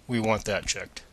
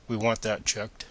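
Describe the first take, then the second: No difference in how they are said.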